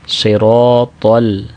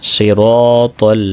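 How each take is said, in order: No difference in how they are said.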